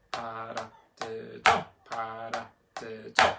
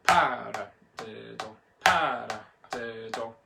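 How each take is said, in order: First: Measured chant landing hard on the final "do"; accent on fourth syllable. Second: Paradiddle with PA punched; slow chant, leaning hard on the opening "pa"; accent on first syllable. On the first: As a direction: hit only the last syllable, "do". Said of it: "let's tackle accent number four". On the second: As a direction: hit the start of each paradiddle. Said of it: "let's try accents one". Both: Shown as a demonstration.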